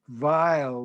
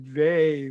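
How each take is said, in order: First: The name rhymes with mile, ending in an l. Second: The name rhymes with may, with no l. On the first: The speaker calls it wrong. "it's not vile like the German" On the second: The speaker calls it right. "the family pronounced it vey"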